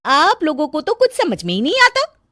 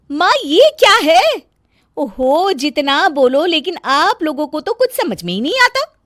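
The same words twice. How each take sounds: First: High complaining; nagging bahu. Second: Shrill complaining daughter-in-law, high and loud; nagging bahu. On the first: Daughter-in-law complaining, high voice. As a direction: whine it out. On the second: Daughter-in-law scolding her mother-in-law, high loud complaint. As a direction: whine and scold like a fussy bahu. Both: Acted.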